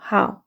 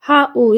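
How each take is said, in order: First: The word is said as one syllable. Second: The word is split into two syllables. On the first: The speaker calls it right. "이중음이라서 한 번 읽어주셔야 돼요" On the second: The speaker calls it wrong. "이렇게 이음, 이음절 아닙니다"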